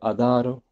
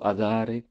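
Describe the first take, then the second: First: The word ends with an 'o' vowel. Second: The word ends with an 'e' vowel. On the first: "Par exemple sur" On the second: "j'ai entendu beaucoup"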